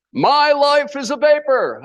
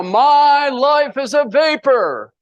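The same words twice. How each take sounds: First: High, slowed crowd chant; chanted, lead the crowd in a high, drawn-out mantra; mock seminar chant. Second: Chanted, high, very drawn-out rallying cry; chanted, belt out the mantra slowly like a hyped seminar crowd; louder mock chant. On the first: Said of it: "say this with me". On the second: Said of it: "Louder now".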